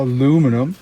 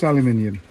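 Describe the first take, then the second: First: It is said in an American way. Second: It is said in a British way. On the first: The speaker calls it wrong. "if you're an American and can't say things correctly" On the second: The speaker calls it right. "there's a U in it"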